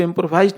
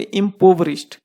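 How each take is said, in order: First: "इम्प्रोवाइज्ड" with a long "vaaiz" sound in place of "və-rish"; mispronunciation. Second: "इम्पोवरिश्ड" as im-PO-və-risht, short i in "rish"; correct pronunciation. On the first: Teacher warning students off a misreading, mispronounced "इम्प्रोवाइज्ड" with an "eye" vowel. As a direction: say "इम्प्रोवाइज्ड", the third syllable rhyming with "eye". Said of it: "नहीं बोलेंगे". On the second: Teacher showing students how to say it, correctly pronounced "इम्पोवरिश्ड" ending in "risht". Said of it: "इसको बोलेंगे". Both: Shown as a demonstration.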